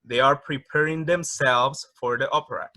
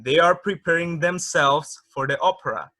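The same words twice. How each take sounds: First: Said in the usual way. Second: Louder careful model read; model English sentence. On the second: Shown as a demonstration. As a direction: read the example aloud for the class. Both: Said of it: "veamos algunos ejemplos".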